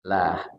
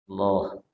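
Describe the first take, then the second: First: The L is light with a clear a vowel. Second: The L is heavy with a dark o-like vowel. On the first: "Kalau lah berarti lamnya tipis" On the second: "Kalau sebelumnya fathah dan dhammah maka dibaca loh"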